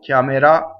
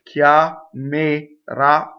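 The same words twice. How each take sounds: First: The word is said at a normal speed. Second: The word is said very slowly and drawn out.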